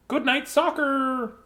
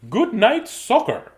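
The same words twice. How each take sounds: First: Announcing the title again, higher. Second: Announcing the title. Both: Shown as a demonstration. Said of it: "by request".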